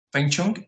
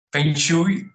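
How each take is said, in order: First: "feng shui" altered to "fen chung", rising; second-guessed pronunciation. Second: "feng shui" tried as "fen shui", rising; unsure pronunciation. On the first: Speaker unsure how it is pronounced, "feng shui" guessed as "fen chung". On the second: Speaker unsure how it is pronounced, "feng shui" as a rising "fen shui". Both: Real, not acted. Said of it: "no sé cómo se pronuncia".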